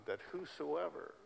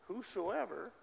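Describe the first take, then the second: First: Said in the usual way. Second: Whosoever repeated, pitched much higher; emphatic repeat. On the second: Real, not acted. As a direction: lift whosoever up high the second time. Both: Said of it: "The whole world is filled with whosoevers".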